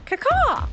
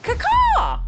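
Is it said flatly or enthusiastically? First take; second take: flatly; enthusiastically. First: It is said flatly, with little energy. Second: It is said enthusiastically, with more energy.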